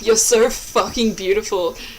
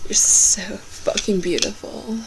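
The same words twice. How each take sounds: First: It is read in an ordinary voice. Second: It is read in a put-on sexy voice. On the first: The speaker calls it wrong. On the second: The speaker calls it right.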